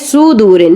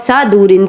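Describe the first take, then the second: First: The first syllable has the vowel 'u'. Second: The first syllable has the vowel 'a'. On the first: The speaker calls it right. "लेकिन ये सुदूरिन है" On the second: The speaker calls it wrong. "वो सा दूरिन कह देते हैं"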